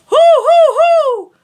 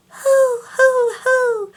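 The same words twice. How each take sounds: First: Loud ringing high hoo; full high head tone. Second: High thin falsetto hoo; airy high hoo. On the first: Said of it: "and head voice". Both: Shown as a demonstration.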